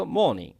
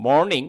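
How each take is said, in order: First: 'মর্নিং' without the r, 'maw-ning'; British pronunciation. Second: 'মর্নিং' with the r sounded; American pronunciation. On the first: Teacher showing learners British 'মর্নিং', silent r. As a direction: drop the r in 'মর্নিং' with a rounded vowel. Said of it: "কিন্তু British হলে বলতো". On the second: Teacher showing learners American 'মর্নিং', r pronounced. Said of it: "এটা American উচ্চারণ". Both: Shown as a demonstration.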